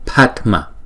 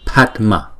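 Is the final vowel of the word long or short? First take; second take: short; short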